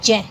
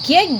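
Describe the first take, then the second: First: The syllable starts with a j sound. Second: The syllable starts with a g-like sound. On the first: This is the pure pronunciation. The speaker calls it right. "इसका जो शुद्ध उच्चारण है वो जय होना चाहिए" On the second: This is how people commonly say it. The speaker calls it wrong. "ये इसको ज्ञ ज्ञानी बोलते हैं"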